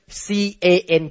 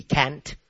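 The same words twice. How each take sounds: First: C A N spelled slowly, letter by letter. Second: Can't said low and much softer; softly dismissed. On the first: Pastor spelling the word for the congregation, slow. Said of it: "it means you can do it". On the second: Pastor rejecting the word to the congregation, low and soft. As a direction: drop can't away quietly. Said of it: "not C A N apostrophe T". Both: Shown as a demonstration.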